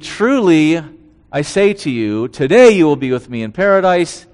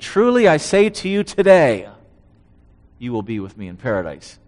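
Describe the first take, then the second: First: The pause comes before 'today'. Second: The pause comes after 'today'.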